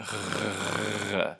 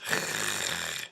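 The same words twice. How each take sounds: First: Buzzing throaty R with voice; gargle-like voiced uvular rasp; voiced uvular fricative. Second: Voiceless raspy throaty R, just breath; airy scraping sound at the uvula; unvoiced uvular fricative. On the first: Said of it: "like that when I make it". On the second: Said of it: "that is gonna come out like this". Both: Shown as a demonstration.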